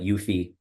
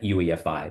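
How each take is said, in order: First: It is said in a shorter, blended form. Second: All four letters are spelled out separately. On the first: "some people that call it U F I, which is also acceptable" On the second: "that's actually how you pronounce that"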